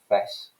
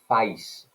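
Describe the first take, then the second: First: The vowel is a short monophthong, London style. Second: The vowel glides as a diphthong.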